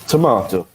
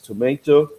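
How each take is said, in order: First: It is said with a British pronunciation. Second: It is said with an American pronunciation. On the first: "a British person will pronounce it as tomato" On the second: "You would hear an American uh, or maybe someone who's learned American English pronounce it as tomato"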